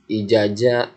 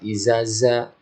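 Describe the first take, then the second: First: Both consonants are pronounced as j. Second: Both consonants are pronounced as z. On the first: "Ada yang baca ijaja" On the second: "ada yang baca izaza"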